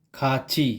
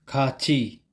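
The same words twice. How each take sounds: Both takes have the same delivery.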